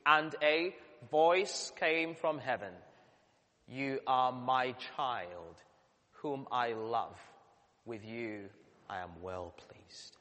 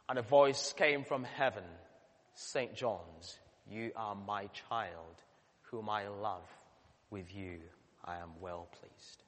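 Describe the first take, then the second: First: Slow, measured congregational reading; reading scripture aloud. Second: Reading scripture with a name. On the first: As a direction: read it slowly together with the people. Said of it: "Shall we read it together?". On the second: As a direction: say it gently as if spoken to you. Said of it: "shall we try that again?". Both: Shown as a demonstration.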